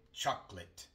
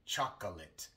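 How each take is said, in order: First: The unstressed middle vowel is dropped entirely. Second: The unstressed middle vowel is fully pronounced. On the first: The speaker calls it right. "normalmente omitimos la O" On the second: The speaker calls it wrong. "Casi nunca escucharás a un hablante nativo decir chocolate"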